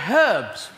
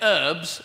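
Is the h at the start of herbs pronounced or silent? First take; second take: pronounced; silent. First: The initial h sound is clearly pronounced. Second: The initial h sound is left silent. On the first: This is how the British say it. The speaker calls it right. "we say herbs, because there's a f***ing H in it" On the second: This is how Americans say it. The speaker calls it wrong. "you say herbs"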